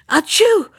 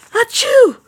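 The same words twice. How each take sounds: First: High, loud acted sneeze. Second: Even higher, louder sneeze; bigger sneeze. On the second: Acted. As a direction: let the second sneeze explode. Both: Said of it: "sneezed the old man".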